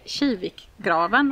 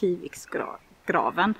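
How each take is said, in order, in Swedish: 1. Det finns inget s mellan delarna. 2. Ett s binder ihop delarna. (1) "om man ska säga det på skånska" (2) "Jag är ju från Göteborg så jag hade ju sagt Kiviksgraven"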